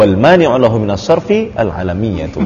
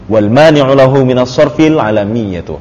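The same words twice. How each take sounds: First: "sarfi" and "al alamiyatu" said apart; separated reading. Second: "sarfil alamiyatu" linked without a break; joined reading. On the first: Teacher offers students another reading of the phrase, separated reading. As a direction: break after "sarfi", begin "al alamiyatu" afresh. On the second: Teacher reads the Arabic phrase aloud to students, joined reading. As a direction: run "sarfil" straight into "alamiyatu". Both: Shown as a demonstration. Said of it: "di wafsol ya".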